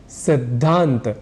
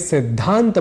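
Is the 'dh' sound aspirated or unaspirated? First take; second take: unaspirated; aspirated. First: The consonant is said without any aspiration. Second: The consonant is said with a breathy aspiration. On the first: The speaker calls it wrong. "जल्दी में सिद्धांत बोल जाने की गलती" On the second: The speaker calls it right. "हमें सिद्धांत बोलना चाहिए"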